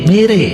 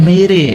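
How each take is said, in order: No difference in how they are said.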